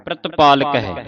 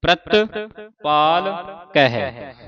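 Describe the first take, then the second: First: ਪ੍ਰਤਪਾਲਕ in one smooth run at normal pace; ਪ੍ਰਤਪਾਲਕ joined up without breaks; said together. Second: ਪ੍ਰਤਪਾਲਕ drawn out syllable by syllable; ਪ੍ਰਤਪਾਲਕ spoken slowly in separate parts. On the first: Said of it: "ਇਕੱਠਾ ਹੀ ਉਚਾਰਨ ਕਰਨਾ ਹੈ". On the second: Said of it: "ਹੁਣ ਇਕੱਠਾ ਹੀ ਉਚਾਰਨ ਕਰਨਾ ਹੈ". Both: Shown as a demonstration.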